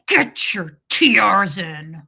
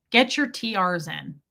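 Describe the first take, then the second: First: Imitating dad's loud, slow order through gritted teeth; menacing dad, teeth clenched; talking through teeth. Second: Said in the usual way. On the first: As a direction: force it out loudly and slowly through clenched teeth. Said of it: "He talked through his teeth".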